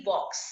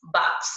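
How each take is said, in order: First: बॉक्स said with a rounded open o, "bɔks"; with the chandra o sound. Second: बॉक्स said as "baks" with an open a, not o; without the chandra. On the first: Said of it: "जब मैं इसमें चंद्र लगा दूंगी तो ओ की ध्वनि". (बॉक्स को गोल ऑ की ध्वनि से पढ़ें) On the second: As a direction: read बॉक्स as plain "baks" with a flat a vowel. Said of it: "बिना चंद्र की सहायता से पढ़ूंगी". (बॉक्स को "बाक्स" पढ़ें, खुली आ की ध्वनि) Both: Shown as a demonstration.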